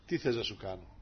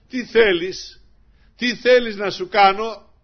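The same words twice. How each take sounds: First: Softer, lower tender question; gentle Lord. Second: Higher, louder, slow calling question; as the Lord, call out the offer. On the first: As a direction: ask it softly like the Lord. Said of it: "Έτσι δεν μας λέει ο Κύριος". (ως ο Κύριος, τρυφερά και σιγανά) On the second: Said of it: "Έτσι μας λέει ο Κύριος". (ως ο Κύριος, δυνατά και αργά) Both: Acted.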